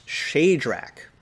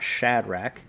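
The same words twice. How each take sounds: First: Shadrach with a long A, SHAY-drack, slow; chart's Shadrach. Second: Shadrach with a short A, SHAD-rack; usual Shadrach. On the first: Teacher correcting the class to the chart's Shadrach. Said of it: "it's Shadrach". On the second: Teacher showing the usual Shadrach as the wrong one. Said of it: "it's not Shadrach". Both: Shown as a demonstration.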